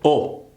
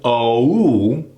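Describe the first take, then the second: First: The vowel is cut short, only half formed. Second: The vowel is fully formed and gliding. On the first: The speaker calls it wrong. "We tend to do half of it" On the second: The speaker calls it right. "Instead of oh"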